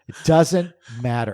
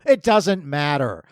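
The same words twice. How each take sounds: First: "doesnt" stressed with a falling tune; "It doesn't matter" leaning on "doesnt". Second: "It" stressed, slowed down, falling; "It doesn't matter" with "It" punched. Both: Real, not acted.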